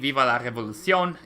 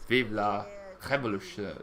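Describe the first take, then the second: First: It is pronounced the Spanish way. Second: It is pronounced the French way. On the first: The speaker calls it wrong. "I pronounced it in, in Spanish" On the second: The speaker calls it right. "but it should be"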